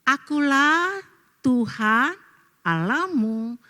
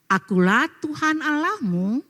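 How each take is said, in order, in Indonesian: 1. Diucapkan lambat. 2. Diucapkan cepat. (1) "jadi diperlambat dikit ya?" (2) "jangan terlalu cepet-cepet ngucapinnya"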